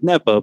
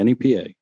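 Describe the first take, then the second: First: It is said as a single word. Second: It is spelled out letter by letter. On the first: "because you could say it out loud" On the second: "I'm going to spell it now"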